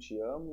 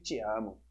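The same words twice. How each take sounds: First: It is said in a soft, sweet tone. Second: It is said in a harsh, aggressive tone. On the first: The words express affection. "pode ser doce" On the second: The same words come across as hostile. "ela pode ser completamente agressiva"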